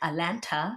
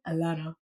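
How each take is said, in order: First: The t in the middle is clearly pronounced. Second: The t in the middle is dropped. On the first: The speaker calls it wrong. "I used to say it like Atlanta" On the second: The speaker calls it right. "they told me it was Alana"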